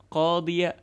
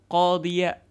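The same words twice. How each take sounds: No difference in how they are said.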